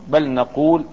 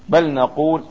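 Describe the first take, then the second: Both takes have the same delivery.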